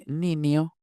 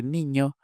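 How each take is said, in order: First: "niño" said as "ninio"; ñ split into N-I. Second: Said in the usual way. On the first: Shown as a demonstration. Linguist showing what they say for boy, ñ as ni. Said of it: "desdoblamiento al revés, de ñ en N I". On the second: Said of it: "En lugar de".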